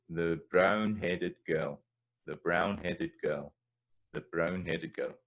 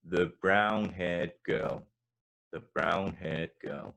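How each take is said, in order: First: Put-on slow Scots brown-headed girl, rolled r; Scots phrasing. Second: Put-on slow English-accent brown-haired girl. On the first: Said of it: "bring the idiom in here". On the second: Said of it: "in an English accent". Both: Shown as a demonstration. Teacher contrasting English and Scots phrasing.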